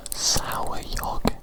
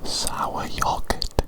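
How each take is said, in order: Both takes have the same delivery.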